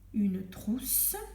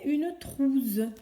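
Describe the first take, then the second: First: The middle consonant is a hissing s sound. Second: The middle consonant is a buzzing z sound. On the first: The speaker calls it right. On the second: The speaker calls it wrong.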